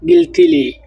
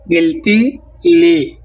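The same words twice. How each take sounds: First: Said in the usual way. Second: গিলতিলি drawn out very slowly, each syllable apart; teacher dragging out গিলতিলি so it can be copied; very slow demo. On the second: Shown as a demonstration. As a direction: stretch গিলতিলি out for the class. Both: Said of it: "তাহলে বলবো".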